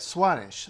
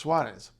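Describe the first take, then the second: First: The final consonant is pronounced as sh. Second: The final consonant is pronounced as z. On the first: This is how it is said in Portugal or Rio. "The S becomes sh" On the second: This is how it is said in most of Brazil. "where it just becomes z, like we would in English"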